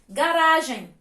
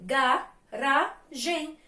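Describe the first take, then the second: First: Said in the usual way. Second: "Garagem" very slowly, in three separate beats; syllable by syllable. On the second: Shown as a demonstration. Teacher answering how many syllables, "Garagem" split up. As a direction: say "Garagem" as ga, ra, gem with gaps. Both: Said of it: "E quantas sílabas".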